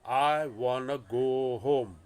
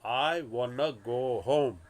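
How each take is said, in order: First: 'Want to' is squeezed together into 'wanna'. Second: The same.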